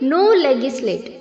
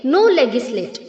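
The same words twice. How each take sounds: No difference in how they are said.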